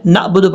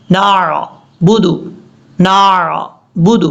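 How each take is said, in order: First: Quick 'نعبد' as naabudu, no ع; wrong recitation. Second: Slow 'نعبد' with strong throaty ع; correct clear ain. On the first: Teacher shows the common mistake, mistaken recitation. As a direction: say 'نعبد' smoothly without throat sound. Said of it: "لوگ کیا غلطی کرتے ہیں". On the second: Teacher shows the right way, slow correct recitation. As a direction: hold 'نعبد' on the ع, then budu. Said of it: "یہ ہے پڑھنے کا طریقہ". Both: Shown as a demonstration.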